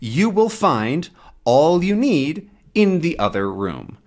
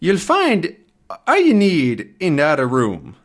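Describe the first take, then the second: First: It is said in the speaker's plain accent. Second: It is said in a put-on Scottish-like accent.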